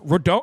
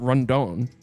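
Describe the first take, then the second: First: There is no n sound before the d. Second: An n sound comes before the d. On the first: The speaker calls it right. "It's Rodon. There's no N" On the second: The speaker calls it wrong. "It's not Rondon"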